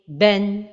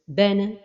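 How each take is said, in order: First: The final n is short with no bounce. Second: The final sound ends with an echoing bounce. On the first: The speaker calls it right. "Donc la prononciation correcte est" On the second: The speaker calls it wrong. "Une autre erreur est de donner al-qalqala vers la fin de prononciation"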